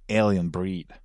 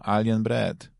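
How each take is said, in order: First: The second word has a long vowel, like 'breed'. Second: The second word has a short vowel, like 'bread'. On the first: This is how the title should be said. The speaker calls it right. "A powinien być gdzieś Alien Breed" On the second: This is the way it is said in Polish. The speaker calls it wrong. "Jak się wymawia po polsku"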